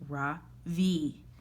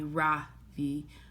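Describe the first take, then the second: First: The stress is on the second syllable. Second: The stress is on the first syllable. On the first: The name means the sun. The speaker calls it right. "with a soft Ra and a strong V" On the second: The name means nothing. The speaker calls it wrong. "with the stress on the first syllabus"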